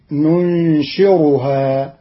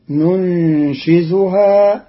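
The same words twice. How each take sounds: First: ننشرها with an r, "nunshiruhaa"; raa, not zay. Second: Said in the usual way. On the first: Shown as a demonstration. Teacher shows Qalun's reading, ننشرها with raa. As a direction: say ننشرها slowly with a clear r in place of z. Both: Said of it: "بالراء المهملة".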